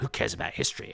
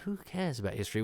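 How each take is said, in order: First: It is said in a gruff, phlegmy tone. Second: It is said in a musing, reflective tone. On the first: The speaker is a hard, dismissive man. "a sort of tough guy nation chewing a cud, you know, phlegmy, spitty" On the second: The line is a thoughtful reflection. "he does it as a kind of philosophical"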